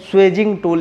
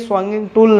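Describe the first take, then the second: First: The first word is said with a 'swayj' sound. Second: The first word is said with a nasal 'swang' sound. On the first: The speaker calls it right. "स्वेजिंग tool इसको बोला जाता है" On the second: The speaker calls it wrong. "ये स्वांगिंग tool नहीं है"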